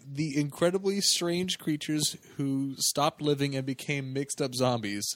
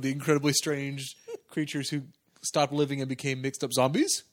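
First: The title ends with a falling statement tune. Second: The title ends with a rising question tune.

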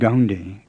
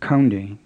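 First: It starts with a voiced G sound. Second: It starts with a breathy, aspirated K. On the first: "it's not gaunde with an English G" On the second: "It's not kaunde with an aspirated K like English"

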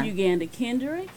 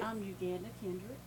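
First: It is said louder, in a deeper voice. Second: It is said softly, in a small voice.

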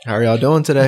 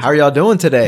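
First: It is said flatly, with little energy. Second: It is said with more energy and enthusiasm.

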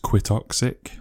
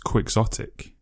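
First: It sounds like "quit" followed by "toxic". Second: It sounds like "quick" blended with "exotic". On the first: The speaker calls it wrong. "In my head, it's Quitoxic, like quit. Toxic, but it's not" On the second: The speaker calls it right. "It's Quixotic, like quick and exotic"

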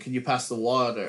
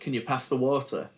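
First: It is said in an American accent. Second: It is said in an English accent. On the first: The speaker adapted to fit in with the others. "So then you start going" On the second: The speaker still sounded English and got laughed at. "that's where I lost my accent because I would say"

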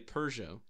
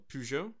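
First: It is said with an added R sound. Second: It is said without an R sound.

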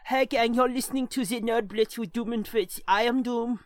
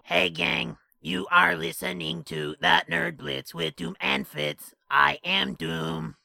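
First: It is said in a put-on German accent. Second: It is said in a raspy, tracheotomy-like voice.

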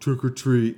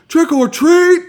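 First: It is said quietly and flatly. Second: It is yelled loudly and excitedly.

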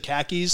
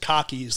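First: The word is said without a Boston accent. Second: The word is said in a Boston accent. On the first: "typically I say khakis" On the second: "a lot of people in Boston say pronounce it cockies"

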